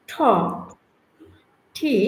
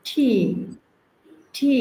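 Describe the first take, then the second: First: "ঠি" with aspirated th; breathy "ঠি"; correct T. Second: "ঠি" repeated with aspiration; "ঠি" aspirated, said twice. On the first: Teacher models T as aspirated "ঠি". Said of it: "তাহলে হবে". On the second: Teacher drills T as "ঠি". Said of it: "আমরা যখন করবো ট". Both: Shown as a demonstration.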